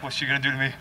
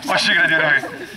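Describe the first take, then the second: First: Hushed, low, uneasy aside; acted quiet unease. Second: Said in the usual way. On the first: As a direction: mutter it softly as if nervous of her. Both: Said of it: "he's kind of uneasy".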